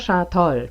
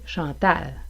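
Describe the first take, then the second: First: The final a is back, close to o. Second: The final a is front and bright. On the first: The speaker calls it wrong. "Vous n'entendrez pas Chantol" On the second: The speaker calls it right. "est toujours prononcé avec un A"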